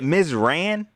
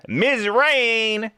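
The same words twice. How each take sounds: First: Ms. "Ran" said with a short a, like the word ran; "Ran" with a short flat a, trying a new version; name as Ran. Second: Ms. "Rain" said with a long ay vowel, like the weather; "Rain" rhymed with pain, the way he has been saying it; name as Rain. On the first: Streamer checking a viewer's name, testing "Ran" with a short a. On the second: Streamer greeting a viewer, saying her name the old way, as "Rain". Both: Shown as a demonstration. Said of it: "Am I saying your name wrong?".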